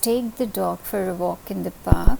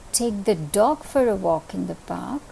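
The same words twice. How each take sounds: First: The stress is on "take". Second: The stress is on "dog".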